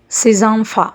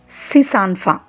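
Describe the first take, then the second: First: Six links to the next word with a z. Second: Six links to the next word with an s. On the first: The speaker calls it right. "It should be pronunciated as Sizanfa" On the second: The speaker calls it wrong. "This sentence should not be pronunciated as Sisanfa"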